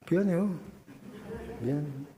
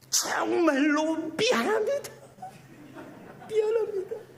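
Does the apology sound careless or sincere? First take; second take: careless; sincere. First: The apology sounds careless and insincere. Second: The apology sounds heartfelt and sincere.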